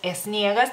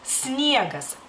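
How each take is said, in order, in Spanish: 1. Hay una e extra antes de la s. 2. La palabra empieza directamente con el sonido s. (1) "ponen la E, o sea, al principio" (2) "tratar de pronunciarla bien. Es sniegas"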